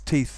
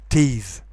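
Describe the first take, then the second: First: The final th sound is voiceless. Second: The final th sound is voiced. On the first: The speaker calls it right. "It's teeth that bite" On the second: The speaker calls it wrong. "you shouldn't pronounce it"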